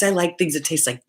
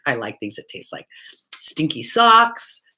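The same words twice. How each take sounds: First: Said in the usual way. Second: Hushed confession. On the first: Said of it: "repeats line hushed". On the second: Shown as a demonstration. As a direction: drop to a whisper for "stinky socks". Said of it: "I have to stop laughing".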